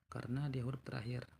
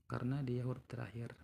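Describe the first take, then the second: No difference in how they are said.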